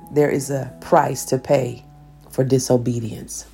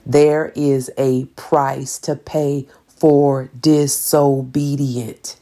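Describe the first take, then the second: First: It is said at a normal pace. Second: It is said slowly and deliberately.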